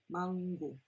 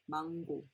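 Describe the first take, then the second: Both takes have the same delivery.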